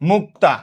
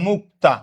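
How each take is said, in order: First: The k and t sounds are joined directly. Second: The same.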